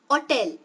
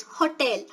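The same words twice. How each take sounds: First: "Hotel" with a silent H, as oh-TEL; unstressed first syllable. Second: "hotel" with the H clearly sounded; stressed H O. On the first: Teacher showing the unstressed form to learners, H dropped. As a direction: drop the H from "Hotel". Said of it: "I'm not stressing the first syllable". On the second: Teacher showing the stressed form to learners, H pronounced. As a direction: breathe out a clear H to start "hotel". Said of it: "if you stress the first syllable". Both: Shown as a demonstration.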